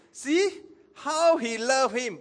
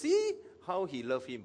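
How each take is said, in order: First: High, loud, slow exclamation; acted exclamation. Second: Mildly skeptical remark. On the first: Onlookers exclaiming as Jesus weeps, high moved exclamation. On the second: Acted. Sceptical onlookers remarking about Jesus, mildly skeptical. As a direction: say it with a touch of doubt. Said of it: "okay, uh, skeptical".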